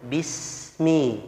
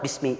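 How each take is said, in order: First: The s sound flows and is drawn out. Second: The s sound is rushed and cut short. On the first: The speaker calls it right. "suaranya harus mengalir, harus bismi" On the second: The speaker calls it wrong. "Tidak boleh terlalu cepat"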